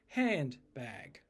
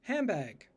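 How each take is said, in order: First: The middle consonant is a clear n sound. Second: The middle consonant becomes an m sound. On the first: "the dictionary would say you pronounce it handbag" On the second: "when I'm talking quickly, it probably comes out as handbag"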